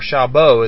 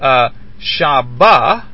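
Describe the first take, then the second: First: The final vowel is an o sound. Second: The final vowel is not an o sound.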